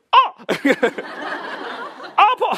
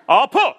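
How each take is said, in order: First: Much higher, breathy yelp of fear; scared squeal. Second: Louder, higher punchy cry of pain; manly yell of pain. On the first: Speaker reenacting his own scared yelp during laser treatment. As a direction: squeak it out like a frightened kid. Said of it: "이렇게 쫄잖아요". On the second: Speaker showing the brave yell he could not manage. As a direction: bark it out bravely. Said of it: "이렇게 안 되는 거예요". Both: Retold or imitated.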